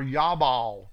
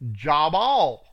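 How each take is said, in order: First: The name begins with a Y sound. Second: The name begins with a J sound.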